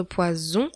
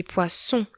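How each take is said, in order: First: "poison" with a buzzing Z sound in the middle. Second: "poisson" with a sharp unvoiced S in the middle; hissing S. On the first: Teacher contrasts poison with poisson for students. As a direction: give "poison" a soft voiced Z. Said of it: "on fait la différence entre poison". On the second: Teacher contrasts poisson with poison for students. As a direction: hiss the double S in "poisson". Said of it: "et poisson, avec deux S". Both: Shown as a demonstration.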